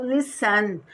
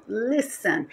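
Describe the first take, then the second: First: "listen" with the stress moved to the last syllable; wrong final stress. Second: "listen" stressed on LIS, light ending; stress on first syllable. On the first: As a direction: say "listen" as li-SEN, punching the ending. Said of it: "Eu não falo listen". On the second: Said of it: "A sílaba forte é o li". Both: Shown as a demonstration.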